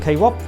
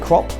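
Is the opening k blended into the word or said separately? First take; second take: separate; blended. First: The k is said as a separate syllable. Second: The k blends straight into the word. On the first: "instead of K-Rop" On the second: "some people, they will say crop"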